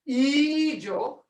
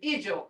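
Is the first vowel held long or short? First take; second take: long; short. First: The first vowel is held long. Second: The first vowel is kept short. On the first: The speaker calls it wrong. "You can't say ijo" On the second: The speaker calls it right. "You have to say ijo, and that's a short sound"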